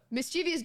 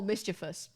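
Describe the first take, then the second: First: "mischievous" as mis-CHEE-vee-us; four syllables in "mischievous", stressed on CHEE; common mispronunciation. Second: "mischievous" as MIS-chi-vus; three syllables in "mischievous", no ee sound; correct pronunciation. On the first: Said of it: "However, it's not the word". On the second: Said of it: "Mischievous is the word". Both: Shown as a demonstration.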